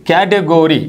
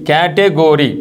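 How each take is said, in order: Both takes have the same delivery.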